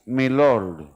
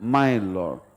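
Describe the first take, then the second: First: The first word sounds like 'may'. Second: The first word sounds like 'my'. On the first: The speaker calls it wrong. "ये word गलत है" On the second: The speaker calls it right. "The word is माय Lord"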